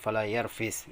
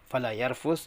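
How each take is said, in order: First: The vowel before the final s is i. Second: The vowel before the final s is u. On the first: "bisa dengan mengkasrahkannya jadi fala yarfis" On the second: "bisa dengan mendhammahkan huruf fa dibaca fala yarfus"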